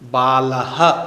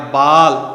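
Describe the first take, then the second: First: The word ends with a breathy h sound. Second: The word ends without a final h sound. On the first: The speaker calls it right. "विसर्ग का बालः" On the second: The speaker calls it wrong. "यह संस्कृत में उच्चारण नहीं होगा"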